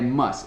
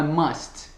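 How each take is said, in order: First: The final T sound is dropped. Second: The final T sound is clearly pronounced. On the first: The speaker calls it right. "é must, especialmente dentro de frases" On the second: The speaker calls it wrong. "não é must normalmente"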